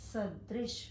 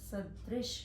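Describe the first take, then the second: No difference in how they are said.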